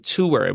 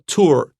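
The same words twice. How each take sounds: First: The word is said with two syllables. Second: The word is said with one syllable. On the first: "我我的两个音节很清楚" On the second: "one syllable"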